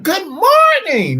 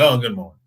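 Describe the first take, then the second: First: It is said with extra energy. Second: It is said plainly, with ordinary energy.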